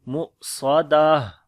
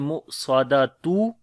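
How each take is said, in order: First: The word ends with an 'ah' sound. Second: The word ends with a full 'atun' ending. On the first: The speaker calls it right. "बल्कि पढ़ेंगे" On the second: The speaker calls it wrong. "ऐसे नहीं पढ़ेंगे"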